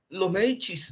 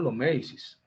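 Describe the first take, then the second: First: The name is said with Italian pronunciation. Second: The name is said with Spanish pronunciation. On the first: "así es que se le dice en términos, en términos italianos, la C se pronuncia como una, como, como una H" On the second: "digamos los Médicis, en nuestros términos"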